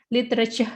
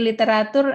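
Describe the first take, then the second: First: Literature ending in "cher"; English pronunciation. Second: Literatur with a full "a" and "toor" ending; Indonesian pronunciation. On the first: Teacher giving the English parallel, literature with a "cher" ending. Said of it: "you can say literature". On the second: Teacher giving a parallel word, Indonesian literatur ending in "toor". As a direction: sound out literatur as spelt, li-te-ra-toor. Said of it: "seperti literatur". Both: Shown as a demonstration.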